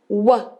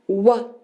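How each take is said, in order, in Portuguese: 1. Só se faz o som curto do W. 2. Só se faz o som curto do W.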